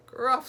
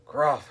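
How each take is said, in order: First: Put-on very high-pitched baby squeak. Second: High, loud howl of protest. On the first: Little Treasure squeezed in mother's hug, squeaking. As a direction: squeak it like a squashed toddler. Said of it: "squeaked Little Treasure". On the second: Captain squeezed in his wife's hug, howling. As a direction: howl to be let go. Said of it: "howled Abdul". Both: A narrator's reading.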